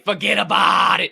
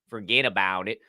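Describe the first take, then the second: First: 'About' has an open 'ah' vowel, East Coast style. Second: 'About' has a plain standard 'ow' vowel. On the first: The speaker calls it right. "You gotta say forget about it" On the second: The speaker calls it wrong. "and not forget about it"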